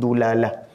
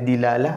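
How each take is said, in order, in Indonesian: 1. Suku kata pertama memiliki vokal u. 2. Suku kata pertama memiliki vokal i. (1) "ataupun dulalah" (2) "ada dilalah"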